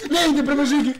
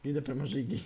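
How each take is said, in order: First: High, very loud yell of alarm; panicked shout. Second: Said in the usual way. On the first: Real, not acted. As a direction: scream it in sudden panic. Panicked shout, game chase.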